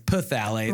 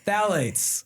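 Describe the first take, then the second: First: The word begins with an audible p sound. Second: The word begins with a plain th sound. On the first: "It starts with the P in the spelling, so I've jokingly referred to it as" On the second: "I don't even know if I'm saying it right"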